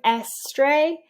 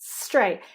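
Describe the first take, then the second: First: An extra vowel adds a syllable before the s. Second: The word is said as one single syllable. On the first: The speaker calls it wrong. "If you're hearing S stray" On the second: The speaker calls it right. "you're only getting one hit, one beat"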